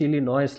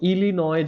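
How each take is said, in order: First: It ends with an s sound. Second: It ends without an s sound. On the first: The speaker calls it wrong. "ইলিনয়েস লেখা আছে, এস দেওয়া আছে" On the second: The speaker calls it right. "যেমন ইলিনয় যেটা"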